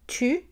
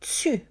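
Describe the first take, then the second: First: The t is a plain t sound. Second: The t is affricated, sounding like ts.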